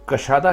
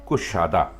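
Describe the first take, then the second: First: The first syllable has the vowel 'a'. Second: The first syllable has the vowel 'u'. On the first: The speaker calls it wrong. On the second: The speaker calls it right.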